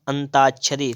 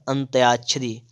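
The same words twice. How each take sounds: First: "अंताक्षरी" with plain -taa-; wrong form. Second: "अंत्याक्षरी" with -tyaa-; corrected form. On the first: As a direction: say "अंताक्षरी" without a y-glide. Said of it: "तो अंत्याक्षरी". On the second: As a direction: put a y-glide after t in "अंत्याक्षरी". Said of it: "हो जाएगा". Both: Shown as a demonstration.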